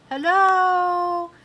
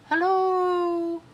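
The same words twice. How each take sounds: First: High, loud calling shout; shouted hello. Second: High distant echoing call; echo, far away. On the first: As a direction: call it out across the mountain. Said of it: "and I shouted". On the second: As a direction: answer like your own voice from far off. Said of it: "It sounded like my voice, only far away". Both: Acted.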